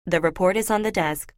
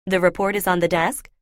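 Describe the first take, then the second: First: Said in the usual way. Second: "The report is on the desk?" with the tune rising at the end like a question; uptalk, statement ending on a rise; rising question intonation. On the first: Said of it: "instead of saying". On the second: Shown as a demonstration. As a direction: turn "The report is on the desk?" into a question, pitch climbing on "desk". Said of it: "as if they're asking a question".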